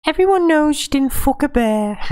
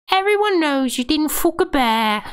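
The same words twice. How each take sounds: First: High, loud mocking woman's voice; Ygritte voice. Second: High mocking woman's voice, calling him out; Ygritte voice. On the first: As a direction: call out the bear boast in a shrill mock. Repeats Ygritte quote. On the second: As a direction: scoff at his boast in a high pitch. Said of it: "Ygritte goes".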